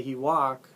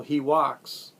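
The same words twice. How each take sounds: First: He walk, said without the final s; learner error. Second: He walks, with the final s clearly said; correct verb form. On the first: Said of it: "if you say "he walk," that's not interlingual". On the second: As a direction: walks ends in a crisp s. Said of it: "if you say". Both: Shown as a demonstration.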